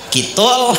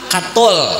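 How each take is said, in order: First: The first vowel is a high 'i' sound. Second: The first vowel is an open 'a' sound. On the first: The speaker calls it wrong. "jangan dibaca kasrah" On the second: The speaker calls it right. "barisnya fathah"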